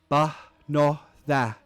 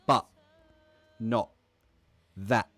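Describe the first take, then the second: First: The T sounds are dropped with no closure. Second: The T sounds are cut off by throat closure. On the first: The speaker calls it wrong. "Compare it to if the airway doesn't close" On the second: The speaker calls it right. "You can hear the sound being cut off by the airway closing"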